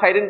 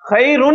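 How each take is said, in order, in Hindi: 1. शब्द का अंत -in की ध्वनि से होता है। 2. शब्द का अंत -un की ध्वनि से होता है। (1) "ना खैरिन पढ़ सकते" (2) "खैरुन ही पढ़ेंगे आप इसे"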